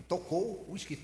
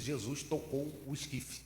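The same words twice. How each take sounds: First: Tocou hit higher and louder, meaning touched; stress on tocou. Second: Said in the usual way. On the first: Shown as a demonstration. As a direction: lean hard on tocou in tocou o esquife. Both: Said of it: "Esquife é caixão".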